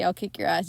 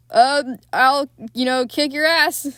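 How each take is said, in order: First: Said in the usual way. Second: Louder, puffed-up fake bravado; hammed-up threat, louder and higher; mock tough guy. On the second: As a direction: play the scared man acting tough. He doesn't say, "I'll kick your ass.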